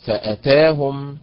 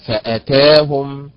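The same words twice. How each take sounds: First: فأتاهم slow with the ta stressed; stress on the ta again. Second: فأتاهم slow with the ta syllable stressed. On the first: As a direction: say فأتاهم once more, ta stressed. (نبر على التاء مرة أخرى) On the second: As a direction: draw out فأتاهم and hit the ta. (نبر على حركة التاء) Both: Shown as a demonstration. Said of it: "النبر فيها على حركة التاء".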